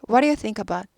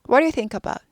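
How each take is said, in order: The two takes are said the same way.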